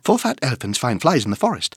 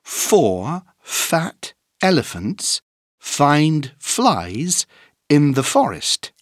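First: It is said at a very fast speed. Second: It is said at a moderate speed.

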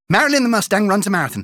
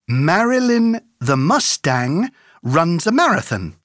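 First: It is said very fast. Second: It is said at a moderate pace.

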